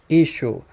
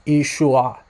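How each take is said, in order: First: "Ishu" as EE-shoo, ending on the oo; shown pronunciation. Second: "Ishua" as ee-shoo-AH, with an added final ah; older pronunciation. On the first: Teacher repeating the name so viewers recognize it, demonstrated pronunciation. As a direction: repeat "Ishu" in two syllables, no final ah. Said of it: "it's pronounced Ishu". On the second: Teacher showing how the name was possibly said earlier, older pronunciation. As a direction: sound out "Ishua" in three syllables. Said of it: "earlier on it was pronounced". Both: Shown as a demonstration.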